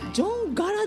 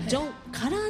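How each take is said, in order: First: The third syllable has a voiced 'ga' sound. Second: The third syllable has a voiceless 'ka' sound. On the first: The speaker calls it wrong. "ジョンガラって思ってたんです今まで" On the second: The speaker calls it right. "ジョンガラではなくてジョンカラーなんですね"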